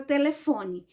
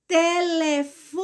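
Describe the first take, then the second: First: Said in the usual way. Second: "Telefone" slowly by syllable, FO held longer; stressed syllable FO. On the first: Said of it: "pronuncia a palavra telefone". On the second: Shown as a demonstration. Teacher has pupils close eyes and listen, "Telefone" stressed on FO. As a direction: draw out "Telefone", leaning on FO. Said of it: "qual foi o pedacinho mais forte?".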